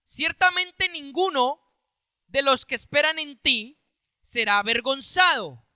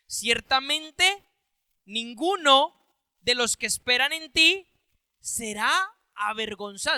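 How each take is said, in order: First: Said in the usual way. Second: Slow emphatic reading. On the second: Shown as a demonstration. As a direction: reread slowly, each word set apart. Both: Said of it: "O sea, mire qué importante".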